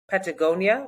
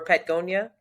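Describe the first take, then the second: First: The vowel after the T is pronounced. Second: The vowel after the T is dropped.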